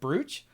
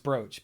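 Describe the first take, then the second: First: It is pronounced as the spelling suggests. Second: It is pronounced the usual spoken way. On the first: The word has only ever been seen written. The speaker calls it wrong. "my brain is like brooch" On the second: The word is known to be said this way. The speaker calls it right. "I know it's brooch"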